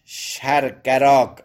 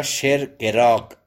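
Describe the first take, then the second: First: شرگراگ with "a" in each syllable, stretched out; variant shargaraag. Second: شرگراگ with "e" in the first two syllables, measured slowly; variant shergeraag. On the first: Teacher lists the name's variants, شرگراگ slowly as shar-ga-raag. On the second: Teacher offers an alternative reading of the name, شرگراگ slowly as sher-ge-raag. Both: Shown as a demonstration.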